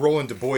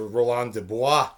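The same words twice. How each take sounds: First: The name is said with English pronunciation. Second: The name is said with French pronunciation.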